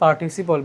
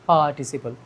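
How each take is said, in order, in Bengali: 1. প্রথম স্বরবর্ণের পরের r উচ্চারিত হয়। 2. r নীরব থাকে এবং স্বরটি দীর্ঘ হয়। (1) "যেমন এটা আমরা পড়ি পার্টিসিপল" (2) "আর কে সাইলেন্ট করে আগের বাওয়েলটাকে একটু লম্বা করে"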